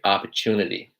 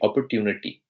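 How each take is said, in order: First: The word is said in an American accent. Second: The word is said in an Indian accent. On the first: "In the American accent, it will be" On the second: "In the Indian accent, it would be"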